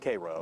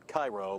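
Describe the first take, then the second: First: It is pronounced the local Georgia way. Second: It is pronounced like the Egyptian city's name. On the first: This is how locals say it. "Down there it's pronounced Cairo" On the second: This is how the spelling suggests it. "even though it's spelled Cairo, like Egypt"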